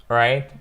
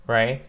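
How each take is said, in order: Both takes have the same delivery.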